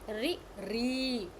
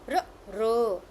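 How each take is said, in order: First: The r is followed by an i vowel. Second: The r is said with no added vowel. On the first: "Some people also pronounce it ri ri" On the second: "but it's a r r. Correct"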